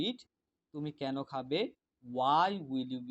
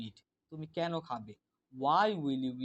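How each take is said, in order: No difference in how they are said.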